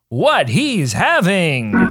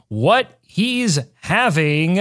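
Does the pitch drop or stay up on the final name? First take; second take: stays up; drops. First: The pitch stays up on the name. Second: The pitch drops low on the name. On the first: The speaker calls it right. "That is the inflection that the people want" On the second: The speaker calls it wrong. "I don't know why my inflection went down on that"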